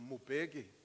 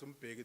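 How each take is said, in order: First: A vowel is inserted between the M and b. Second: The M joins the b directly, no vowel. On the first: The speaker calls it wrong. "They called him Mubeki" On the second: The speaker calls it right. "struggling to pronounce Mbeki"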